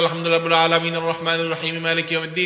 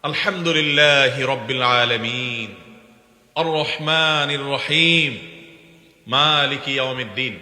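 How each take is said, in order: First: It is rushed through in one breath without pauses. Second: It is recited slowly with a pause after each verse. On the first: The reciter hurries without waiting for a reply. The speaker calls it wrong. "টান দিয়ে ... এক নিঃশ্বাসে পড়বেন" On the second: The reciter gives time for each verse to be answered. The speaker calls it right. "সূরা ফাতিহার প্রত্যেকটা আয়াতের পরে থামাটা সুন্নাত"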